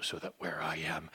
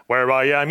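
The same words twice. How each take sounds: First: Much softer, low and hushed. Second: Louder, rising to a full climax; swelling loud. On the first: Preacher quotes Jesus to the congregation, hushed and soft. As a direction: start the repetition almost under your breath. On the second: Preacher quotes Jesus to the congregation, building to a loud climax. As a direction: burst out of the hush on the last "where I am". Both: Acted.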